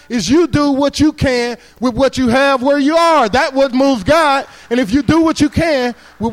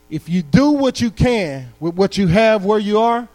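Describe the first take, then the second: First: Slow, loud, higher proclamation of the key line; the punchline delivered slow and loud; emphatic preaching. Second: Said in the usual way. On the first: Acted. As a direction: proclaim each word to the whole room. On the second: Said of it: "key line said first, slowly".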